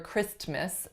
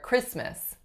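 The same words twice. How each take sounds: First: The t sound is clearly pronounced. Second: The t sound is silent. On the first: The speaker calls it wrong. "It's never" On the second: The speaker calls it right. "It's always totally gone"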